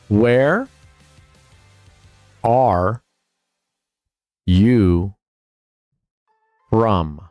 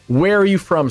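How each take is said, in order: First: The question is spoken slowly and deliberately. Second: The question is spoken at a normal pace.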